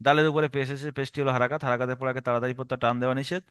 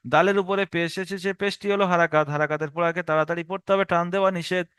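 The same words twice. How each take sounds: First: Low, fast rattled-off recital; mimicking a student's hurried drill; students' wrong method. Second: Steady drilled recital in one run; even, unbroken classroom drill; continuous rule recitation. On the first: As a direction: gabble the rule in a low monotone. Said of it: "এটা একটা রং পদ্ধতি". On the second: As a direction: recite the rule straight through, evenly. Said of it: "টানা Ezra করে চলে যাব". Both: Shown as a demonstration.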